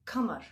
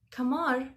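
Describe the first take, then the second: First: Kamar said with stress on the first syllable; Arabic kamar. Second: Kamar said with the stress on mar; Russian stress on the end. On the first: Teacher showing the original Arabic word for moon, stress on KA. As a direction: keep the k and lead with KA. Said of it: "they don't say kamar". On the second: Teacher showing the Russian word for mosquito, stress moved to the end. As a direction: move the stress to the last part: kaMAR. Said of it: "Just change the stress". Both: Shown as a demonstration.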